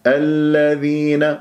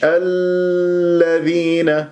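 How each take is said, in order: First: الذين with the lām held only briefly; correct light lām. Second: الذين with the lām stretched far too long, slow; over-held lām. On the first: Teacher models correct الذين, lām not over-held. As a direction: recite الذين gently, no lingering on lām. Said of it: "مش الذين". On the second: Teacher shows what to avoid, الذين with overlong lām. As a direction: drag out the ll of الذين. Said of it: "لا تطل جريان الصوت فيها". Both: Shown as a demonstration.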